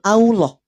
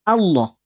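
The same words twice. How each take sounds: First: The vowel is thick and drifts toward o. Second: The vowel stays thin and open like a. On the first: The speaker calls it wrong. "Kenapa jadi muncul Allah" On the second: The speaker calls it right. "bukan Allah"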